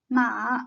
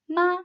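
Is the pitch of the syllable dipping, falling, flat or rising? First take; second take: dipping; flat. First: The pitch dips low then rises again. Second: The pitch stays high and level. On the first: It means horse. "The third tone is a dipping one" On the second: It means mother. "The first tone is a high, flat tone"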